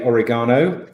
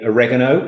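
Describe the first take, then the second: First: It is said in a non-American accent. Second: It is said in an American accent. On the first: "as you would say" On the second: "as the Americans would say"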